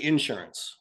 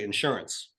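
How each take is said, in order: First: The stress is on the first syllable. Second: The stress is on the second syllable.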